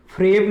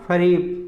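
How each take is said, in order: First: फ्रेब as one syllable, "freb"; wrong फ्रेब. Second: फरेब in two syllables, "fa-reb"; vowel between f and r in फरेब; correct फरेब. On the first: Teacher showing the error, फ्रेब as "freb". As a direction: run f and r together in फ्रेब. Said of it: "अशुद्ध शब्द है". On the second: Teacher giving correct form, फरेब as "fa-reb". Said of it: "इसका शुद्ध रूप होगा". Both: Shown as a demonstration.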